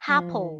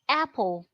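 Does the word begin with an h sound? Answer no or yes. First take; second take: yes; no. First: The word starts with an added h sound. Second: The word starts with a vowel, no h. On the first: A sound that should not be there is added. The speaker calls it wrong. "the person is saying apple" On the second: This is the intended word. The speaker calls it right. "someone wants to say apple"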